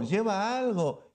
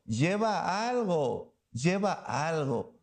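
First: Said in the usual way. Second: Slow, dropping echo of "lleva algo"; slow fading repeat. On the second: Shown as a demonstration. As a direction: let "lleva algo" fade out slowly.

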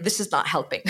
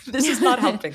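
First: Said in the usual way. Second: High, loud protest through laughter; laughing protest. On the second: Retold or imitated. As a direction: push it up and out while laughing. Repeats retold complaint while laughing.

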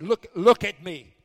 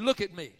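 First: Much louder, slower shout; escalated shouted order to the spirit; shouted command. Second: Louder, stern look at me; first firm order to the spirit; firm command. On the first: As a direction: bark it at the spirit, slowly. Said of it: "I'm not talking to her. I'm talking to that spirit". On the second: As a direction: demand attention sharply. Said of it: "I said". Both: Retold or imitated.

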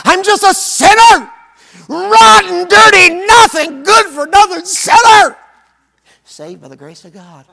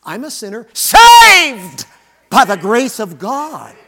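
First: Hammed-up groveling cry of sinner, high and shouting; mocking self-put-down stress. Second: "saved" hit hard, slow and loud; proud stress on saved by the grace of God. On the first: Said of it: "here's where we put the emphasis". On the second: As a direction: lean on "saved" with conviction, slowly. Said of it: "I think the emphasis should be". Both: Shown as a demonstration.

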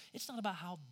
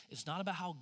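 No difference in how they are said.

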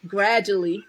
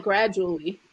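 First: "gradually" run together the New Orleans way; home-accent pronunciation. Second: "gradually" said slowly and carefully, formal; rejected formal pronunciation. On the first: Speaker correcting toward her home accent, relaxed pronunciation. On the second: Speaker showing what not to say, careful formal pronunciation. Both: Shown as a demonstration. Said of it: "not gradually".

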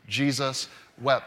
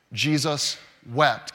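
First: Slow recitation. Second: Slow and deliberate. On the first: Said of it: "can you say it with me?". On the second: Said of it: "Are you ready?". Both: Shown as a demonstration.

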